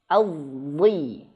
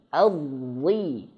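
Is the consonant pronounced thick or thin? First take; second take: thick; thick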